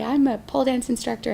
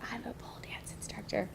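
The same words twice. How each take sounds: First: It is said proudly in a full, confident voice. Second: It is said quietly and apologetically, almost whispered. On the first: The speaker is proud of the job. The speaker calls it right. "I put my chest up and I say" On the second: The speaker is embarrassed about the job. The speaker calls it wrong. "I would whisper it"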